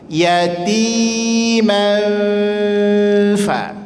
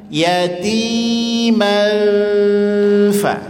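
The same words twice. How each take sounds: No difference in how they are said.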